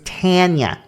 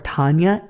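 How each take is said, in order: First: The first vowel is a nasal eh sound. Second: The first vowel is an open ah sound.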